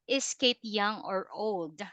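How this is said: The pitch stays flat throughout the question. The speaker calls it wrong. "You don't say, ... That is flat"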